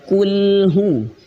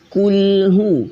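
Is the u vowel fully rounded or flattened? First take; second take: rounded; rounded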